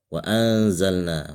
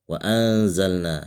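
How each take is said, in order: First: The n before z is hidden and nasal. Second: The n before z is hidden and nasal.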